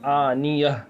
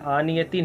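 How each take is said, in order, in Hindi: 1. शब्द एक हल्की h आवाज़ से खत्म होता है। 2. शब्द पूरे -tin अंत से खत्म होता है। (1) "लेकिन यहाँ क्या पढ़ेंगे" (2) "क्या है"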